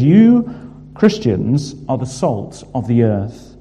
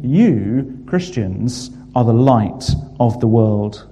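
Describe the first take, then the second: First: Preacher punches "You" before the words "are the salt of the earth"; emphatic you. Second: Said in the usual way. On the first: Shown as a demonstration. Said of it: "the you here is emphatic". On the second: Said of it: "Emphatic statements".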